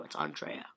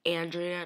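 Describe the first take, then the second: First: "Andrea" said AHN-dray-uh, with an open ah; right pronunciation. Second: "Andrea" said AN-dree-uh, with a flat a; wrong pronunciation. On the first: Shown as a demonstration. Fan correcting her own name, AHN-dray-uh, quietly. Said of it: "No, it's Andrea". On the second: Retold or imitated. Fan mimicking people who mispronounce her name, AN-dree-uh. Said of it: "people, like, mistake my name".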